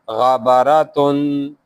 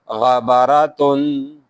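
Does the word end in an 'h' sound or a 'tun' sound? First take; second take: tun sound; tun sound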